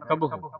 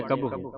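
First: ਕਬਹੂ with a short final "u", near "kab-ho"; correct short ending. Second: ਕਬਹੂ ending in a "hoo" sound; hasty misreading, ਕਬਹੂ with a closed "oo"; mistaken pronunciation. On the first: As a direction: keep the last vowel of ਕਬਹੂ short. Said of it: "ਹੁਣ ਇੱਥੇ ਔਂਕੜ ਲੱਗਾ ਹੈ". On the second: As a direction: say ਕਬਹੂ wrongly as "kabhoo". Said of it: "ਸੰਗਤਾਂ ਕਾਲ ਵਿੱਚ ਕਬਹੂ ਪੜ੍ਹ ਜਾਂਦੀਆਂ". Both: Shown as a demonstration.

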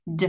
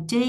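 First: Said in the usual way. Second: "D" stressed as the main syllable; raised tone. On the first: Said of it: "lên giọng là D". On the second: Shown as a demonstration. Teacher marking main stress, raised tone on "D". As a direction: lift and stress "D". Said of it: "lên giọng".

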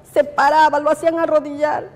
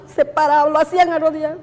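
Both takes have the same delivery.

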